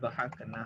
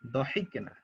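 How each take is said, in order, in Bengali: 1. দ্বিতীয় দলে 'a' স্বরধ্বনি আছে। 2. দ্বিতীয় দলে 'i' স্বরধ্বনি আছে। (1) "তাহলে এটা একটু ভুল হয়েছে আপনার।" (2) "এটা হবে দহিক না।"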